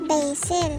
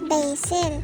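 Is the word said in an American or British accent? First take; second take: American; American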